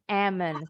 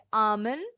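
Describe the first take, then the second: First: ALMOND with a front a, like "emen". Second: ALMOND with open ah first vowel; ALMOND as ah-mund. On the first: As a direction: say ALMOND with a flat a-as-in-cat and no L. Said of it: "boleh amen". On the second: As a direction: say ALMOND with a broad ah and no L. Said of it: "Bacanya boleh almond". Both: Shown as a demonstration.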